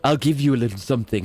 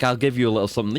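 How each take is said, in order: First: It sounds creepy and suggestive. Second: It sounds plain and innocent.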